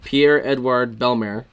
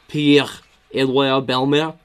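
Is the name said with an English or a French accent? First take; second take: English; French. First: The name is said with an English accent. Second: The name is said with a French accent. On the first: The speaker calls it wrong. "Sorry, I didn't say that right" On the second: The speaker calls it right. "Gotta get the phlegm in there"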